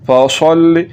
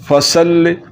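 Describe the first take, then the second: First: The s sound is heavy and full. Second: The s sound is thin and light. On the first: The speaker calls it right. "स्वाद के साथ ही पढ़ना है" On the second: The speaker calls it wrong. "अगर सीन के साथ पढ़ दिया ... जो कि गलत है"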